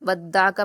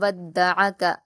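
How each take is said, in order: First: The ain is cut off with no vowel after it. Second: The ain is said with a short vowel after it. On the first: The speaker calls it wrong. "आइन पर जज्म की आवाज़ आ रही है" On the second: The speaker calls it right. "आप इसको इसी तरह से पढ़ेंगे"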